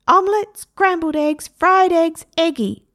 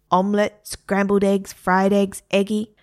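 First: High, loud parrot repeating the list; a parrot echoing the owner's list, much higher and louder. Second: Said in the usual way. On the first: A narrator's reading. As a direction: squawk it back like a parrot. Parrot repeats Stephen's words.

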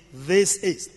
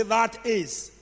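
First: "This" said louder, firm and falling; stress on THIS. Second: "That" stressed, falling, as the rejected reading; wrong word THAT. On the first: Preacher giving the congregation the right reading, loud stressed "This". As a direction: land heavily on "This" as the true word. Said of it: "The voice said". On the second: Preacher showing the congregation the wrong reading, stressed "That". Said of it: "But it did not say". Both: Shown as a demonstration.

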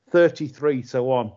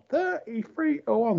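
First: Said in the usual way. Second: Put-on Gary Wiltshire's Indian accent, high and far; mock Indian accent call of the odds. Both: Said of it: "says Gary Wiltshire in an Indian accent".

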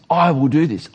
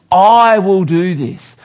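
First: Said in the usual way. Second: Louder, higher, slow I will do this with I punched; emphatic slow I will do this. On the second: Shown as a demonstration. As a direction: land the final I will do this hard and slow.

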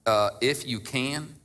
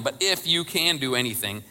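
First: Slow, questioning disbelief on IF; a touch of frustrated echo; incredulous. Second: Said in the usual way. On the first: Retold or imitated. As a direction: toss the words if you can back in mild disbelief. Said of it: "Jesus is actually frustrated". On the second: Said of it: "this is the doubt coming out of the father".

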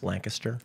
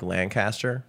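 First: Lancaster as LANK-uh-ster, reduced middle syllable; local pronunciation. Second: Lancaster as LAN-CAST-er, full second syllable; pronunciation demo. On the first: Correcting the town's name, Lancaster said LANK-uh-ster. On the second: Naming the girl's hometown, Lancaster with full "cast". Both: Shown as a demonstration. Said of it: "supposed to be pronounced Lancaster".

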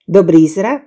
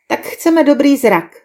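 First: Louder echo with a rising end; questioning echo. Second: Higher, slow, eager request; eager wish. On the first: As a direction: query the wish back at them. Condor questions the people's wish. (důrazná otázka se stoupavým koncem) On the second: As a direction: voice the people's hopeful wish. People state their wish to animals. (dychtivé přání, výše a pomalu) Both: A narrator's reading.

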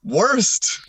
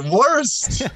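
First: "Worst?" asked with a high, rising tune; incredulous "worst?". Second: "Worst!" exclaimed high and loud, falling; outraged exclamation. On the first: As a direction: echo the word in disbelief, pitched high. Outraged echo of the question. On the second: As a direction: fling the word back, indignant and loud. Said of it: "I was gonna let it hang there". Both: Real, not acted.

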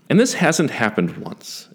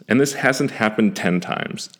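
First: THIS hit higher; stress on this. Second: Said in the usual way. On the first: Real, not acted. Speaker stressing how often it happens, this pitched up. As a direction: lean on the word this, pitch up on "this".

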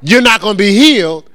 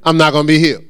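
First: Higher, louder mock pronouncement; pain's verdict. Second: Mock-submissive echo at usual pitch; resigned repeating. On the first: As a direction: voice pain laying down its verdict. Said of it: "if pain and sickness say". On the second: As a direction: parrot the verdict without fighting it. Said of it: "you repeat what pain and sickness say".

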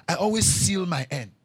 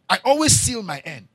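First: Said in the usual way. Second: Shouted. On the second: Acted. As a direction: stress on always, shouted out. Repeated line, shouted.

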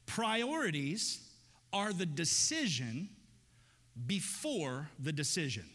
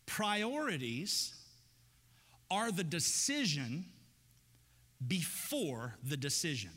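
First: Slow again, long pause before it; slow emphatic repeat. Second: Slow, each phrase set apart with pauses; slow emphatic teaching. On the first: Preacher repeating the key idea to the congregation, slow. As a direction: let the line sink in. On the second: Preacher giving the congregation the key idea, slow and deliberate. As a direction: lay the key line down slowly. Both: Shown as a demonstration. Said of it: "Think about this for a second".

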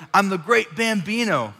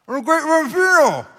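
First: Said in the usual way. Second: Put-on very high, muffled kid voice, words unintelligible; garbled Porter impression. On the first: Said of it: "Can't understand him, right? He goes". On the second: Preacher imitating a kid nobody can understand, garbled. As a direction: mangle it in a high-pitched mock voice. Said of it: "Can't understand him".

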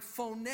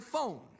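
First: "phone" said in two syllables, fo-nay; Greek pronunciation. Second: "phone" as one syllable, rhyming with "bone"; English pronunciation. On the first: Pastor teaching the Greek word for voice, "phone" pronounced fo-nay. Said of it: "the Greek word for voice used here sounds like". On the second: Pastor likening the Greek to English, "phone" pronounced fohn. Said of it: "but it sounds like phone". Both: Shown as a demonstration.

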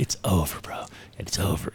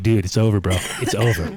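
First: Hushed whisper, lower; whispering the verdict to the crying friend; whispered it's over. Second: Louder, firm declaration; loud mock verdict to the crying friend; telling him it's over. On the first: Retold or imitated. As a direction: drop to a whisper, letting it sink in. Repeating it's over, softer. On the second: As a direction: call it loudly, no hope left. Friend's chili ruined, calling it.

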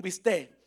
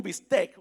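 First: Bistec with the C dropped, "bisté"; bistec without the C. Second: Bistec with a clear final k sound. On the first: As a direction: bistec ending on an open e, no k. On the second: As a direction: bistec ending crisply on the C, bistek. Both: Shown as a demonstration. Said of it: "le quitan la C al final".

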